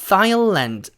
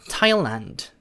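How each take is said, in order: First: It begins with a lisped th sound. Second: It begins with a plain t sound. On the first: The speaker calls it wrong. "번데기 발음" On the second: The speaker calls it right. "H는 무시를 해버리세요"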